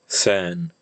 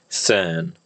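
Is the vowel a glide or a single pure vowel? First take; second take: pure vowel; pure vowel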